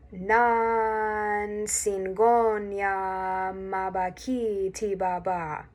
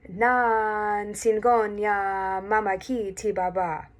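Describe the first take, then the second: First: It is said slowly. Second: It is said at full speed.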